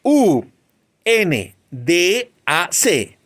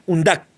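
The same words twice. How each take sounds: First: "U N D A C" slowly spelled, each letter named separately. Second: "undac" said as a single word, not spelled; as one word. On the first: Teacher showing the class the wrong way, spelled slowly. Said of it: "Yo no digo". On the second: Teacher showing the class the right reading as one word. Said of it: "Se lee como una sola palabra". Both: Shown as a demonstration.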